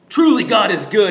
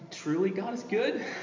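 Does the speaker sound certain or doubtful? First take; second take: certain; doubtful. First: It sounds firm and fully convinced. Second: It sounds doubtful, like a question. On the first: He is fully sure God is good. "he's like super convinced" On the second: He is questioning whether God is good. "Like there's a question mark around there"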